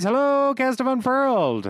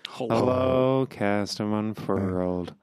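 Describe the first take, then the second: First: The greeting sounds lively and enthusiastic. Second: The greeting sounds flat and unenthusiastic. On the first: The writer is excited to greet them. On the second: The writer is indifferent about greeting them.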